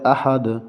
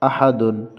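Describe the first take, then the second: First: The word stops short without the 'un' ending. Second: The word ends with a full 'un' sound. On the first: "আয়াত থাকার কারণে উচ্চারণ হবে আহাদ" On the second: "তাল দুই পেশ দুন"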